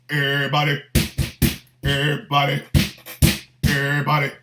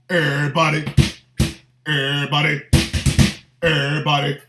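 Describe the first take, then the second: The two takes are said the same way.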